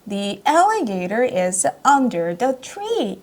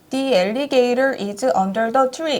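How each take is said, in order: First: The pitch rises and falls like a song. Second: The pitch stays flat with no ups and downs. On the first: The speaker calls it right. "노래처럼 음악처럼 ... 이런 식으로 음률을 타면서" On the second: The speaker calls it wrong. "이렇게 높낮이 없이 읽게 되거든요"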